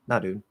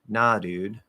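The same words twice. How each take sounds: First: It is said quickly with a flapped D. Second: It is said slowly with a flapped D. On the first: The speaker calls it right. "if I'm speaking really quickly" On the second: The speaker calls it wrong. "and I'm flapping the D, it's just going to sound horrible"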